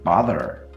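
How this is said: It ends in an r-coloured schwa. "An American might say bother, but that's a roticized schwa"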